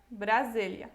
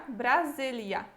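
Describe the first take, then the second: The two takes are said the same way.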